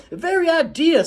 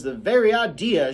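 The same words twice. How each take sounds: First: Much higher, louder outraged cry; outraged Calpurnia. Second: High, loud indignant scold; scolding Calpurnia. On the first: Calpurnia scolding Jem, peaking in outrage. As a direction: let it peak, outraged. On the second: Calpurnia scolding Jem, indignant. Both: Acted.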